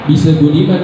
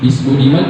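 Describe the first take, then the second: First: The s is followed by a bounced extra vowel. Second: The s ends plainly with no extra vowel. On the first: The speaker calls it wrong. "kan nggak gitu ya" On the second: The speaker calls it right. "bis Budiman kan"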